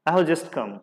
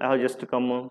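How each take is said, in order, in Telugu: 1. చివరి పదానికి అదనపు ఒత్తిడి ఉండదు. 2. చివరి పదానికి గట్టి అదనపు ఒత్తిడి ఉంటుంది.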